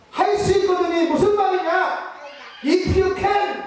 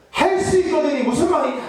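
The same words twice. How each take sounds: First: Rebuking shout. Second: Rebuking Jesus. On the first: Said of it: "이렇게 얘기하십니다". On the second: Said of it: "라고 꾸짖으시는 거예요". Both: Retold or imitated.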